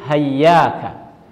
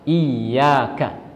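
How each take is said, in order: First: The word begins with an h sound. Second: The word begins with an i vowel. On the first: "ada yang lain hayyaka" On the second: "hamzah dengan berharokat kasrah"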